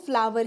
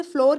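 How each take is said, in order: First: "फ्लावर" said fla-var, like flower; correct फ्लावर. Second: "फ्लोर" with a single o vowel; wrong फ्लोर. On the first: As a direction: open "aa" then v in "फ्लावर". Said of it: "वो फ्लावर ही होता है". ("फ्लावर" में "आ" और "व" बोलें) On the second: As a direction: say "फ्लोर" just like English floor. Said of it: "बहुत से लोग इसे फ्लोर कहते हैं". ("फ्लोर" में "ओ" की आवाज़) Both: Shown as a demonstration.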